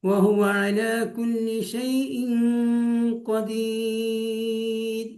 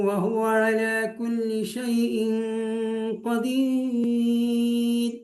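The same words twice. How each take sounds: No difference in how they are said.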